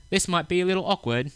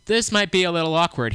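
First: Higher-pitched put-on English accent; quoted Englishman with an English accent. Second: Said in the usual way. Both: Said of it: "he said in an English accent".

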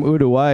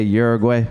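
First: "Uruguay" said the Spanish way, like "oo-doo-why" with a tapped r; Spanish pronunciation. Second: "Uruguay" anglicized as "YUR-uh-gway"; English pronunciation. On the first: Comic proudly saying his home country "Uruguay" the Spanish way, "oo-doo-why". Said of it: "I'm glad I could still say it like that". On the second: Comic showing how Americans say "Uruguay", "YUR-uh-gway". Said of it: "I don't say Uruguay". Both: Shown as a demonstration.

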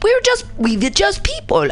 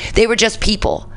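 First: Much higher-pitched mock German accent; clumsy, put-on German accent; attempted German accent. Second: Said in the usual way. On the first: Host voicing ordinary Germans excusing themselves, in a bad German accent. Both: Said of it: "I wish I could do better accents".

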